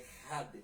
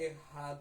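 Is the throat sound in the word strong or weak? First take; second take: Strong; Weak. First: The throat sound is forceful and guttural. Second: The throat sound is slow and weak. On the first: The speaker calls it right. "forçar mais a garganta no had" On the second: The speaker calls it wrong. "meio lento, meio fraco"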